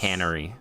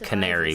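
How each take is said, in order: First: The first syllable sounds like 'can'. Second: The first syllable sounds like 'care'. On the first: This is how other people say it. "I've heard people say cannery" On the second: This is how the speaker always read it. "I've always read it canary"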